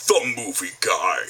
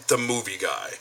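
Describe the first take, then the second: First: Slow, low movie-trailer announcer. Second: Said in the usual way. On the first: Acted. Imitating Don the movie guy, slow trailer voice. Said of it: "imitate his voice".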